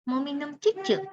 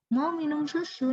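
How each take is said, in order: First: The word is said cutely with ch sounds. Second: The word is said clearly with s sounds. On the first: It is cutesy baby talk. The speaker calls it wrong. "yang diimut-imutkan seperti itu" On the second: It is clear speech for a child to learn. The speaker calls it right. "yang jelas artikulasinya"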